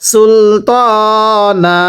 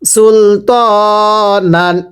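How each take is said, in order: First: The word ends on a long a vowel. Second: The word ends with an n sound. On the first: The reader stops at this word. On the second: The reading continues without a stop.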